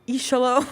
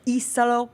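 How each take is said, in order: First: The middle consonant is an sh sound. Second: The middle consonant is a plain s sound. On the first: The speaker calls it wrong. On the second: The speaker calls it right.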